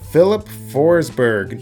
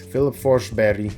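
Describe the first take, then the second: First: The name is said with English pronunciation. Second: The name is said with Swedish pronunciation.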